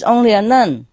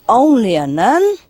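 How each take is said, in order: First: Said in the usual way. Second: Affronted echo with a swooping rise on nun; higher-pitched, indignant disbelief. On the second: Acted. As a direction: throw it back as an offended question. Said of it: "the nun was very indignant".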